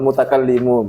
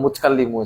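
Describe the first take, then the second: First: The ta sound is read with a vowel. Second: The ta sound is read with sukun. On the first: This is the speaker's habitual reading. The speaker calls it wrong. "Saya biasanya baca wal mutakallimu begitu" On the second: This is how the verse actually requires it. The speaker calls it right. "Ini saya baru sadar kalau mutakallimu sebenarnya"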